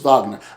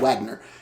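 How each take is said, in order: First: The name is said with a German pronunciation. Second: The name is said with an American pronunciation. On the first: "goes Wagner. I said, exactly" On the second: "in American, ... we just say Wagner"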